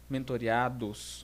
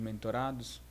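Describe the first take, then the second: First: The word has five syllables, ending in -reados. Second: The word has four syllables, ending in -rados. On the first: The speaker calls it right. "É mentoreados" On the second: The speaker calls it wrong. "eu fui corrigido por uma pessoa a não falar mais mentorados"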